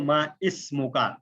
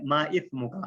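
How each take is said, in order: First: ما اسمکا with a clear hissed s; ما اسمکا, sharp س in the middle; seen, meaning name. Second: ما اسمکا said slowly as ma ith-muka; tha, meaning sin. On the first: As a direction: say ما اسمکا as ma is-muka. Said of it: "آپ کا نام کیا ہے". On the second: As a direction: say ما اسمکا with th as in think. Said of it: "آپ کا گناہ کیا ہے". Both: Shown as a demonstration.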